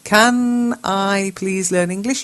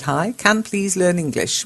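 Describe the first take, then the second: First: Slow corrected read. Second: Said in the usual way. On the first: Shown as a demonstration. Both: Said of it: "That might be what you meant to ask".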